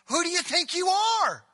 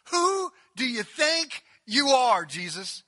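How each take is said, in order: First: High, loud indignant outburst; indignant challenge. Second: Loud and slow, every word leaned on; slow pointed challenge. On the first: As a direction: fling the question at him in outrage. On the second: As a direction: drag it out to belittle him. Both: Acted. And then I love this line.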